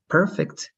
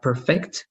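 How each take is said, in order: First: "perfect" with PER stressed; stress on first syllable. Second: "perfect" with FECT stressed, as the verb; stress on second syllable. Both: Shown as a demonstration. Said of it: "It happens the same with perfect".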